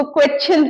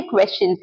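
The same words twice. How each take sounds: First: "क्वेश्चन" with a hard t-ch, kwet-chin; common mispronunciation. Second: "क्वेश्चंस" with sh before ch, KWESH-chuns; correct pronunciation. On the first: Retold or imitated. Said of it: "बहुत से लोग इसको क्वेश्चन तक बोलते हैं". ("क्वेश्चन" को क्वेच्चिन की तरह बोलें) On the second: Shown as a demonstration. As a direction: sound the sh clearly in "क्वेश्चंस". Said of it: "ये क्वेश्चंस हैं". ("क्वेश्चंस" में श साफ़ बोलें, क्वेश-चंस)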